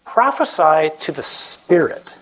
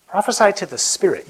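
First: Prophesy to the Spirit, slowed with weight on Prophesy; slow emphatic reading. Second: Said in the usual way. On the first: Shown as a demonstration. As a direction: lean hard on Prophesy and draw the line out slowly. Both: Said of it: "Then the Lord said to me".

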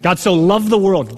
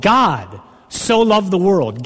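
First: Said in the usual way. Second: God so loved the world, every word slowed and weighed; slow it down and lean on God; slow deliberate repeat. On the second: Shown as a demonstration.

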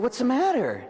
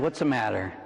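First: High, urgent what's the matter; a priest asking a sobbing kid what's wrong, pitched high; asking "What's the matter?" high and pressing; concerned question. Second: "What's the matter?" eased down low; gentler question. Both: Retold or imitated. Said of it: "And I said".

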